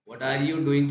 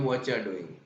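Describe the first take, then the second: First: Every word is said fully and separately. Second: The words are shortened and run together.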